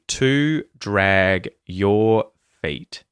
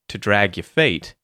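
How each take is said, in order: First: Every word is said fully and separately. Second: The small words are reduced and run together. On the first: "if I say that clearly" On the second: "and then I say that more naturally"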